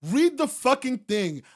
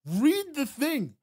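First: Loud, high, slowed punch on read; emphatic order. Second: Slow, high, every word hit; slow emphatic order. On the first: Streamer repeating the order to read, slowed and loud. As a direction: hammer each word home. Scolding chatter. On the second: Streamer ordering a chatter to read, slow and emphatic. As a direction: spell it out word by word. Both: Real, not acted.

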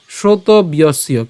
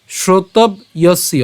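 First: "শ্রোতব্যস্য" slow, b gliding straight into y; joined pronunciation. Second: "শ্রোতব্যস্য" broken after b, as shrotob-yosyo; split pronunciation. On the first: Teacher offering the other way, "শ্রোতব্যস্য" joined as shroto-byosyo. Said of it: "অথবা". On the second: Teacher offering the first way for learners, "শ্রোতব্যস্য" split after b. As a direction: stop on b in "শ্রোতব্যস্য", then start ya. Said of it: "আমরা এখানে ব পর্যন্ত উচ্চারণ করছি". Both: Shown as a demonstration.

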